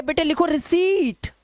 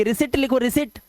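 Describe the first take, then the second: First: High, slow dictation stretching the ee in रिसीट; long-vowel dictation. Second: Quick रिसिट with a short i; short-vowel mispronunciation. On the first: Madam dictating to a child, रिसीट with long drawn-out ee. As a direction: dictate slowly, holding रिसीट as ri-SEEET. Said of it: "उसे रिसीट बोलना पड़ेगा". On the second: Madam dictating wrongly to a child, रिसिट with short vowel. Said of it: "वो रिसिट नहीं बोलेगी". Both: Acted.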